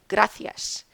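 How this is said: The c is said with a th sound. "pronounce the soft C with the T H sound"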